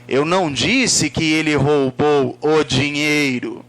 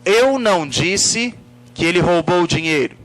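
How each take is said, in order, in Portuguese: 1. A palavra dinheiro recebe a ênfase. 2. A palavra eu recebe a ênfase. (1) "Pode ter sido outra coisa" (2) "Se eu coloco a ênfase na palavra eu"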